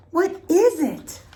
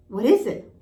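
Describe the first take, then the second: First: Much higher and louder, dragging out what is it; high, loud, slow demand. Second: Demanding. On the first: Piglet pressing Tigger a second time, high and loud. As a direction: ask again, anxious and insistent. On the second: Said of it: "Piglet demanded". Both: A narrator's reading.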